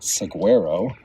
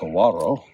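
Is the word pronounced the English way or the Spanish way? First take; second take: English; Spanish. First: The word is pronounced the English way. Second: The word is pronounced the Spanish way. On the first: The speaker calls it wrong. "it's not saguaro" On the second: The speaker calls it right. "they use a traditional Spanish pronunciation"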